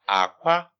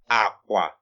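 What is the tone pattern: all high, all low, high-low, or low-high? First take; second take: low-high; all low. First: The tone goes from low to high. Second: Both syllables are on a low tone. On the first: It means egg. "it's low tone, high tone" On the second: It means bed. "So it's low tone at this point"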